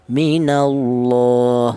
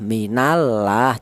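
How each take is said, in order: First: The l of Allah is heavy and thick. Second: The l of Allah is light and thin. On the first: The speaker calls it right. "dibaca tafkhim atau dibaca tebal" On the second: The speaker calls it wrong. "Tidak boleh tarkik seperti contoh minallah, tidak boleh"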